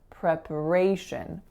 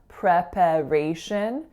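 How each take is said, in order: First: The second syllable is a very short schwa. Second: The second syllable has a full, unreduced vowel. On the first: The speaker calls it right. "that second syllable is being reduced to a schwa" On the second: The speaker calls it wrong. "So it's not preparation"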